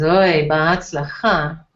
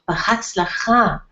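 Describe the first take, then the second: First: It is said doubtfully, expecting failure. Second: It is said as a sincere good wish.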